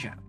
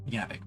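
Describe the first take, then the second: First: The name begins with a J sound. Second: The name begins with a Y sound. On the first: The speaker calls it wrong. "my bad" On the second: The speaker calls it right. "J can sometimes just be pronounced as a Y"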